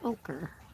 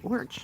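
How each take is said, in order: First: The word is said with two syllables. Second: The word is said as one short syllable. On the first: The speaker calls it right. "I know it is ochre" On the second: The speaker calls it wrong. "I don't know why I say orch"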